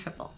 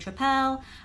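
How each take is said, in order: First: It is said plainly, without a foreign accent. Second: It is said with a foreign accent. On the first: "I am saying it without an accent" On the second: "I'm not saying Tripel"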